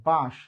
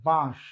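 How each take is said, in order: No difference in how they are said.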